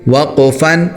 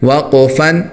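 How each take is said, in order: No difference in how they are said.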